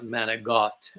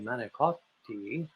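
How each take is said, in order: First: It is said the Brooklyn Italian-American way. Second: It is said the textbook Italian way. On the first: This is how the locals said it. "They would they would be saying" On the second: This is how the speaker said it. "and I would say"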